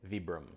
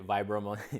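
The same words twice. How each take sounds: First: The name is said with an Italian pronunciation. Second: The name is said with an English pronunciation. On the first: The speaker calls it right. "this is an Italian brand, so the pronunciation would be" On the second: The speaker calls it wrong. "I say Vibram"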